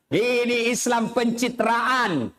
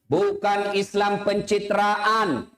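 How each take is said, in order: First: Pencitraan stretched slowly; slow emphasis. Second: Pencitraan drawn out slow and stressed; slow emphasis. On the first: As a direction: lean on pencitraan. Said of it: "restated punchline". (tekan kata pencitraan dengan pelan) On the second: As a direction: stretch out pencitraan. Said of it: "slowed emphasis". (tekankan kata pencitraan pelan) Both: Acted.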